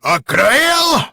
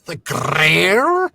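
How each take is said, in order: First: Loud, high rolled R; Cleese R roll. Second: Rolled R echo. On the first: Host imitates Cleese's rolled R, loud and high. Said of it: "He's got that". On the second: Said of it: "Very nice R roll". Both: Retold or imitated.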